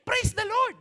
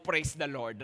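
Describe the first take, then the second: First: It sounds like a startled, panicked exclamation. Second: It sounds sincerely grateful and pleased.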